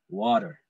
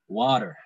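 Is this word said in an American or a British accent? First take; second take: American; American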